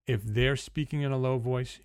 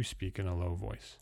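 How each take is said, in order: First: Said in the usual way. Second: Low voice. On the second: Shown as a demonstration. Coach showing clients how to match a prospect, low voice. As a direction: lower and softer, demonstrating. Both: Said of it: "you speak in a low voice".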